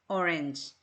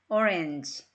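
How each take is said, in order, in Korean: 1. 두 번째 모음은 'eh' 소리처럼 들려요. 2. 두 번째 모음은 'eh' 소리처럼 들려요.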